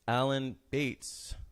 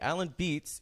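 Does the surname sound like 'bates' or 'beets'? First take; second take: bates; beets. First: The surname is said with a different vowel. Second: The surname is said like the vegetable beets. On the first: The speaker calls it wrong. "am I saying that right?" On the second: The speaker calls it right. "It's like two of the vegetable"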